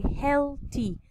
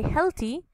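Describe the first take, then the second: First: Healthy broken into two parts, heal pause thy; teacher splitting healthy into heal and thy; split into syllables. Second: Said in the usual way. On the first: Shown as a demonstration. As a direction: say healthy syllable by syllable, each part distinct. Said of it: "break it into two words and say healthy". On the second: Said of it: "We say healthy".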